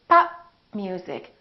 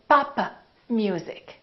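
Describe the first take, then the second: First: The final p is held closed, unreleased. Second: The final p is released with a puff. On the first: The speaker calls it right. "So I didn't release my lips" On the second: The speaker calls it wrong. "Don't say papa music"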